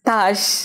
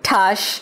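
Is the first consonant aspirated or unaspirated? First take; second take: unaspirated; aspirated. First: The first consonant has no puff of air. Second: The first consonant has a strong puff of air. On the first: This is how the name is meant to be said. The speaker calls it right. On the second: This is how people unfamiliar with the name say it. The speaker calls it wrong.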